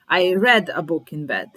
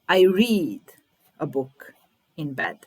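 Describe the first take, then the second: First: The word read sounds like the color red. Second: The word read does not sound like red. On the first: The reading happened in the past. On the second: The reading happens habitually in the present.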